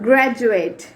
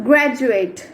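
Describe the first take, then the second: The two takes are said the same way.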